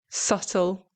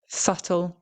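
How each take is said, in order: No difference in how they are said.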